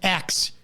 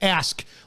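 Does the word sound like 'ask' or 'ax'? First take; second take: ax; ask. First: The word sounds like 'ax'. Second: The word sounds like 'ask'. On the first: The speaker calls it wrong. "saying X instead of ask" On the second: The speaker calls it right. "Learn to enunciate your fucking words"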